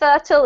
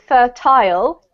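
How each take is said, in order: First: It is said with an American pronunciation. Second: It is said with a British pronunciation. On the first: "more like the U S pronunciation" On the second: "because I'm from the U K, I actually pronounce it fertile"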